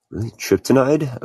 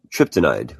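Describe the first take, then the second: First: Rising high in disbelief; questioning the odd name, surprised. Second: Said in the usual way. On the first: Real, not acted.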